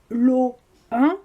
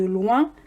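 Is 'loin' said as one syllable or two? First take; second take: two; one. First: Loin is split into two syllables. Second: Loin is said as one syllable. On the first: The speaker calls it wrong. "on ne peut pas dire lo un" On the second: The speaker calls it right. "au lieu de loin"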